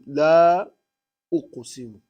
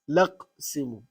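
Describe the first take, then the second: First: A glottal stop separates la and uqsimu. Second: La runs straight into uqsimu without a stop. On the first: "You pronounce the Hamza" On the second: "So you connect between the lam and the uqsimu"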